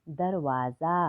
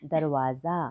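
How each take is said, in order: Both takes have the same delivery.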